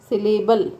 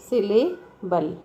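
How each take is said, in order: First: Said in the usual way. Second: syllable slower, broken as सिले, then बल; split into syllables. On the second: Shown as a demonstration. Teacher giving the word as an example, syllable split by a pause. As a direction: pause before the final बल in syllable. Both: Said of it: "syllable अपने आप में ही एक, example है".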